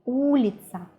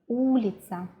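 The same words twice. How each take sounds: The two takes are said the same way.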